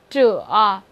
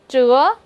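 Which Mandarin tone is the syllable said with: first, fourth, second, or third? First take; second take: third; second. First: The pitch dips low and then rises. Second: The pitch rises from mid to high.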